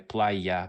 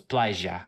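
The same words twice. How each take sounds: First: The middle consonant sounds like 'y'. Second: The middle consonant sounds like 'sh'. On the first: "in Mexico they'll say playa" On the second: "in Argentina this letter Y is pronounced like sh, so it's playa"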